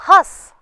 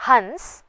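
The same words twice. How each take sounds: First: हंस high and loud, vowel nasalised without n. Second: हंस with clear n before s; bindu pronunciation. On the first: Teacher gives the verb laugh, हंस with nasalised vowel. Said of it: "हंसना क्रिया है". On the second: Teacher names the bird, हंस with full n. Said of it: "हंस पक्षी है". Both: Shown as a demonstration.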